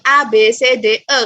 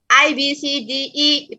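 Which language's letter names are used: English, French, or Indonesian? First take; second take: French; English. First: The letters are named with French pronunciation. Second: The letters are named with English pronunciation. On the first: The speaker calls it right. "kalau abjadnya orang Prancis" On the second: The speaker calls it wrong. "itu Inggris"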